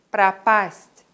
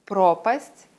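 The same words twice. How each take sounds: First: Пропасть said pra-PAST, the O reduced to A; пропасть as to vanish, second syllable stressed. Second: Пропасть said PRO-past, clear stressed O; Пропасть as chasm, first syllable stressed. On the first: Teacher contrasting homographs, second-syllable stress. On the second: Teacher contrasting homographs, first-syllable stress. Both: Shown as a demonstration. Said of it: "Den Unterschied erkennt man an der Aussprache".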